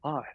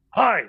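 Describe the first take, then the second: First: Understated, hesitant greeting; awkward small reply. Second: High, loud, abrupt "Hi"; put-on high voice for a stranger's hello; older American man's greeting. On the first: Retold or imitated. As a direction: answer quietly, far more subdued than the stranger. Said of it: "I went". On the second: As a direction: pitch the greeting way up. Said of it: "and he went".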